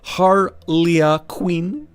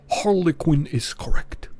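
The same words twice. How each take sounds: First: Slow drawn-out Harley Quinn, German lilt; German accent, name drawn out. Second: Put-on slow, deliberate German accent; German accent, slow and formal. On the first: Acted. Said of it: "deep, gravely, melodic German accent". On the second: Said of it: "Oh, sorry, it's".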